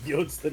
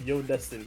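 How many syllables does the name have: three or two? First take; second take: two; three. First: The name is said with two syllables. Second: The name is said with three syllables. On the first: The speaker calls it wrong. "I did say Yodston instead of Yodestin because I misread" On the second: The speaker calls it right. "instead of Yodestin"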